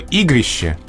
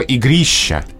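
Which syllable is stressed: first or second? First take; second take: first; second. First: The stress is on the first syllable. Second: The stress is on the second syllable. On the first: A gathering for games and dances. "с ударением на первом слоге" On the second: A big game. "с ударением на втором слоге"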